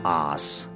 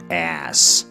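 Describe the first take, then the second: First: The word is said with a British accent. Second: The word is said with an American accent. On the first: "但英音读ass" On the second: "就是我们美音当中经常会说的ass"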